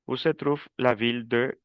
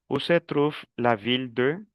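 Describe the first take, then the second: No difference in how they are said.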